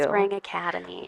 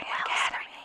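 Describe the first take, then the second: First: It is said in a normal speaking voice. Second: It is said in a whisper.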